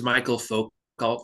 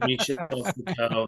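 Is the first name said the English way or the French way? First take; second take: English; French. First: The first name sounds like English Michael. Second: The first name sounds like French Michel. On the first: This is how the speaker long believed it was said. The speaker calls it wrong. "I thought it was Michael Foucault for a long time" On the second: This is how someone else said it. The speaker calls it right. "Somebody mentioned Michel Foucault"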